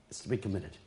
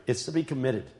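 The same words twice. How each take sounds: First: Much softer, dropping away; quiet repeat of committed; softer echo. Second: Said in the usual way. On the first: Real, not acted. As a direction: let it fall to a hush.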